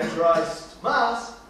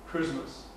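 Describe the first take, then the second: First: It is said as two separate full words. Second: It is said as one blended word. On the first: This is the older form the word comes from. The speaker calls it wrong. "hoy no se pronuncia Christ Mass" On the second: This is how the word is said today. The speaker calls it right. "se pronuncia Christmas"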